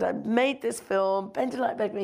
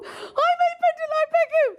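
First: Said in the usual way. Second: Much higher and louder shrieked boast; overexcited blurt. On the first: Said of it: "but I did get it out". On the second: Retold or imitated. Director pitching herself to Bruce, shrieked. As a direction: squeal your credits at your idol. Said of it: "It was really not cool at all".

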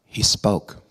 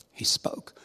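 First: Firm and louder, landing hard on he; emphatic declaration. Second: Whispered, breathy and soft; a quiet awed echo; hushed repeat. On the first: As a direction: proclaim it with weight. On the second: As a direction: let it drop to a reverent whisper. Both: Shown as a demonstration.

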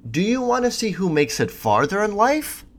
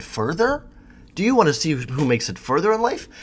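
First: "farther" with a clear ar vowel, FAR-ther; saying farther. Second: "further" with an er vowel, FUR-ther, first word lifted high; saying further. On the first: Telling a girl who makes it farther, pronounced FAR-ther. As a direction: says "farther" as in far away. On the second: Correcting his retold reply to the model: "further" said FUR-ther. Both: Shown as a demonstration. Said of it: "Which I think I sort of said".

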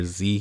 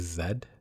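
First: Z said as "zee"; American Z. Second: Zed said with a final d; Canadian Z. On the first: Host naming the letter for listeners, Z as "zee". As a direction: say Z to rhyme with "see". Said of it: "the letter Z here is Zed". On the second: Host explaining Toronto usage to listeners, Zed with a final d. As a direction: say Zed to rhyme with "bed". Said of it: "the official way of pronouncing". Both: Shown as a demonstration.

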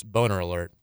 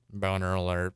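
First: Emotionless robot monotone; flat machine-like alert. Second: Lower, softer robot monotone; deadpan mechanical alert, repeated. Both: Shown as a demonstration. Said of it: "Robot voice".

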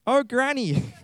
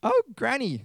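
First: Put-on high girlish voice, falling tune. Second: Very high, falsetto-like granny voice; wrong character voice. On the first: Reader corrects to the girl's line, high girlish voice. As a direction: pitch it up as a young girl. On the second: Acted. Reader misvoices the girl's line, high granny-like voice. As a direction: slip into the squeaky granny voice by mistake. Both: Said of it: "no, wrong voice".

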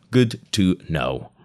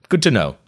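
First: Slow, drawn-out deadpan; slow repeat. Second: Higher and louder, a quick dry quip; quick aside. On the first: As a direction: let each word hang, slowly. Repeats the aside slowly. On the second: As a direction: toss it off brightly. Reader's aside on Chuck. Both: Real, not acted.

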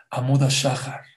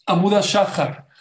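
First: Said in the usual way. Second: Amuda Shahar called out higher and louder; proclaimed Hebrew phrase. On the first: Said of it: "¿Saben cómo se llama el amanecer en hebreo?". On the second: Shown as a demonstration. Preacher proclaims the Hebrew word for dawn, high and loud. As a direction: announce Amuda Shahar like a revelation. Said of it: "cuando más negro está es cuando amanece".

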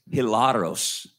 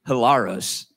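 First: Spanish-accented hilaros with a tapped r. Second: Said in the usual way. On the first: Real, not acted. Preacher reading a Greek word to the congregation, in a Spanish accent. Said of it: "I said that with a Spanish accent". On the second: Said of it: "that's not how the Greeks say it".

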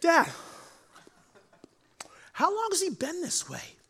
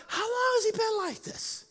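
First: Soft, relaxed, high question; cool and calm. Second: Soft, easy, high question; cool and calm. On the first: Jesus calmly asks the boy's father, soft and relaxed. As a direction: ask gently, cool as a cucumber. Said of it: "he would have just been like". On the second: Jesus calmly asks the frantic father, softly. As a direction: ask it gently, unbothered. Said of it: "cool as a cucumber". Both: Retold or imitated.

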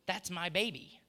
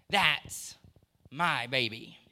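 First: Said in the usual way. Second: Louder, proud and tender emphasis on a father's claim. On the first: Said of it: "that that's my kid". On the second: Acted. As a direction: say it like a father bursting with pride. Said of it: "he can proudly say".

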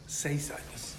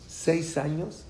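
First: Near-whispered revelation; soft, breath-only whisper for weight; hushed awe. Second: Said in the usual way. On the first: Real, not acted. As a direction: let it out under the breath. Answering own question, hushed in awe.

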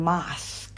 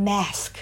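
First: "mask" in British English, with a long open "ah"; British accent. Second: "mask" in American English, with the front vowel of "cat"; American accent. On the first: Teacher contrasting with American English, "mask" in British accent. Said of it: "ถ้าเกิดเป็นภาษาอังกฤษแบบประเทศอังกฤษพูดก็จะเป็น". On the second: Teacher showing learners the American version, "mask" in American accent. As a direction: say "mask" the American way, short-a "mæsk". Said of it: "ก็จะเป็นภาษาอังกฤษแบบอเมริกัน". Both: Shown as a demonstration.

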